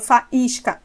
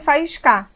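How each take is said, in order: First: The stress falls on the 'is' syllable. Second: The stress falls on a syllable other than 'is'. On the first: The speaker calls it right. "falo faísca. Ah, então a tonicidade está no is" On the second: The speaker calls it wrong. "nem faísca"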